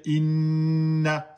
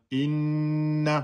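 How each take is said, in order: First: Inna, the nn held long and slow; long held nasal. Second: Inna with the nn held; held double n. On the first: Teacher showing Quran reading, inna with nn held long. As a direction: stretch the nn of inna for two beats. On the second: Teacher repeating for students, nn in Inna held. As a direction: hold the nn in Inna a beat longer. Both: Shown as a demonstration. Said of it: "C'est comme ça qu'on dit".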